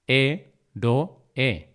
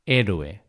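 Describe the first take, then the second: First: "héroe" split as hé, ro, e; syllable by syllable. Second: Said in the usual way. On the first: Shown as a demonstration. Teacher repeating the split for learners, syllable by syllable. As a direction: pause between each syllable of "héroe". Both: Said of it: "esa separación de sílabas".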